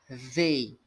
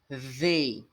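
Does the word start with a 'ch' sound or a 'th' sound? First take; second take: th sound; th sound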